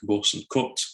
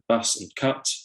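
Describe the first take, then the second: First: The vowels are rounded, Northern-style vowels. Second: The vowels are open, Southern-style vowels. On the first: "people in the north saying things more like" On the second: "Southerners pronouncing words like um, bus and cut, more like"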